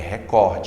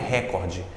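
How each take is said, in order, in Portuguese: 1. A sílaba tônica está na segunda sílaba. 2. A sílaba tônica está na primeira sílaba. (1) "é recorde, é paroxítono nessa palavra" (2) "não é recorde"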